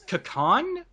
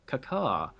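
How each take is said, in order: First: The word ends with a clear n sound. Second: The word ends on a vowel, no n. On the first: The speaker calls it right. "I think it was Kakan" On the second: The speaker calls it wrong. "the actor forgot to pronounce the N, so it just sounds like caca"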